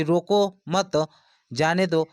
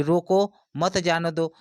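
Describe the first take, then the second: First: "रोको मत" slow and joined, clear break, then "जाने दो"; slow "रोको मत", pause, "जाने दो"; pause after मत. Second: "रोको" set apart, then "मत जाने दो" run together; slow demo, split after "रोको"; pause after रोको. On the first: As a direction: break after मत, meaning let them go. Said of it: "नहीं रोकने की बात कर रहा है". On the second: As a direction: break after रोको, meaning stop them. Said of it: "उनको रोकने की बात कर रहा है". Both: Shown as a demonstration.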